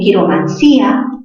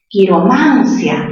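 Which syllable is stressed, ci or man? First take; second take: ci; man. First: The stress falls on the syllable ci. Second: The stress falls on the syllable man. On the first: "cerrada con fuerza, en contacto con la abierta" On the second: "mayor fuerza ¿dónde? En man"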